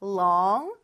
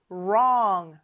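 First: Long with the tongue touching behind the upper teeth; long, a clear L up front; L sound. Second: Wrong with a tense curled R, tongue touching nothing; wrong, tongue floating and tensed on the sides; R sound. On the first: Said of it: "L 발음은 혀가 윗니 뒤에 와서 딱 붙는 L". (long, 혀를 윗니 뒤에 붙여 발음) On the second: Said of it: "양쪽을 긴장시켜준 er". (wrong, 혀가 닿지 않는 R 발음) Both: Shown as a demonstration.

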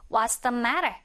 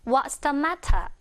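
First: "matter" flapped, like "marer"; American "what's the matter?"; American pronunciation. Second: Slow, with a clear t and no r in "matter"; British "what's the matter?"; British pronunciation. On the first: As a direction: soften the t in "matter" to a tap. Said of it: "이게 미국식으로 들리지만". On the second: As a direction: say "matter" as "mat-tah", unhurried. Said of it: "영국식으로는". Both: Shown as a demonstration.

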